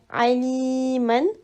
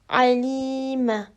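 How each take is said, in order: First: The word ends with an n sound. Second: The word ends with a bare vowel. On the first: The speaker calls it wrong. "au lieu de dire aliman" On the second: The speaker calls it right. "tu dois dire alima"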